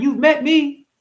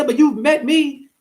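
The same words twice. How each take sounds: First: Said in the usual way. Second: "you've" pushed high, the rest slow and drawn out; stress on you've. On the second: Shown as a demonstration. Reminding his viewers they know him, stress on "you've". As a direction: lean hard on "you've" and slow down.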